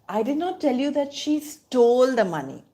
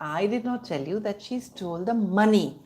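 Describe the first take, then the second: First: The stress falls on the word stole. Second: The stress falls on the word money. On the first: She did something else with the money. "The emphasis is on stole" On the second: She stole something else. "which means she stole something else"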